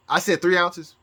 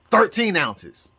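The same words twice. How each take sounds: First: Said in the usual way. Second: "thirteen ounces" drawn out slowly, "thirteen" leaned on; slow stressed thirteen. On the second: Shown as a demonstration. Upping the demand to Trump, slow stressed "thirteen". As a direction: stretch "thirteen" out slowly for a joking upgrade. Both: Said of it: "but since this is taking so long".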